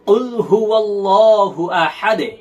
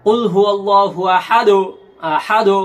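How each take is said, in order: First: Slow, আহাদে with the দ bounced downward; correct qalqala. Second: আহাদু ending pushed into a full u; আহাদু with the bounce going up, as the wrong way; wrong qalqala. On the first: Teacher showing the correct recitation of আহাদে. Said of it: "দে, এরকম একটা শব্দ হবে". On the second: Teacher demonstrating the common wrong আহাদু. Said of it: "এই আহাদু যদি বলে তাহলে এখানে কি ভুল". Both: Shown as a demonstration.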